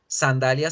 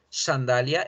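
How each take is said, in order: First: The S sound is plain, Latin American-accented. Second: The S sound is deeper, Spanish-accented. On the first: "pero en español latinoamericano no" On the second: "la S es más profunda en España"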